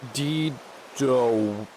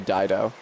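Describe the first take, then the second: First: The name is given its Greek pronunciation. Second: The name is given its usual English pronunciation. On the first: "Greek pronunciation" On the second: "in English they usually say"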